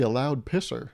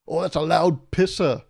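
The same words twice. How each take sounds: First: Said in the usual way. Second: Loud, slow, badly faked British; hammed-up British insult, dragged out; bad British accent. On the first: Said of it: "the British use that". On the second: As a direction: botch a British accent, loudly. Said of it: "that wasn't even an accent".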